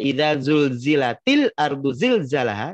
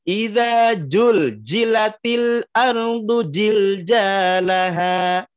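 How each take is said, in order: First: The repeated consonant is pronounced as a z sound. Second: The repeated consonant is pronounced as a j sound. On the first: The earth is being violently convulsed. The speaker calls it right. "Kalau huruf za" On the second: The earth is merely being shaken gently. The speaker calls it wrong. "Banyak jamaah yang me- mengucapkan huruf za itu dengan ja"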